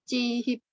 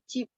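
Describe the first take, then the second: First: The word is split into two syllables. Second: The word is said as one syllable. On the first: The speaker calls it wrong. "bukan ce, cihip" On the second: The speaker calls it right. "Dilafalkan sebagai cheap"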